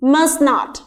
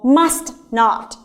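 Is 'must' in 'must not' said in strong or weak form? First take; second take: weak; strong. First: The vowel of must is reduced and light. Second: The vowel of must is full and stressed.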